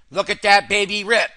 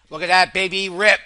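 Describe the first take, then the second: No difference in how they are said.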